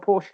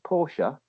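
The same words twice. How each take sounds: First: It does not sound like the name Portia. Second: It sounds like the name Portia. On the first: The speaker calls it right. "I'm a Porsche guy" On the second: The speaker calls it wrong. "That's a bird out of Merchant of Venice"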